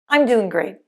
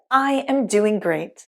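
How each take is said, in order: First: The words are contracted and reduced together. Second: Each word is said fully and separately.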